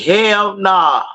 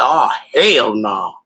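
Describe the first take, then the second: First: Higher, snappy "Hell nah"; quick dismissal. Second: Slow, drawn-out "Oh, hell no" falling; disbelieving. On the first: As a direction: toss off "Hell nah" up high. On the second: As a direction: stretch "Oh, hell no" slowly down. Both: Retold or imitated. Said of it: "I said".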